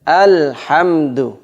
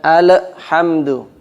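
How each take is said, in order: First: The L is held plain with no echo. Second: The L is released with a small echo. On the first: The speaker calls it right. "tidak ada pantulannya" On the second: The speaker calls it wrong. "al kadang dibaca ada pantulannya, ini salah"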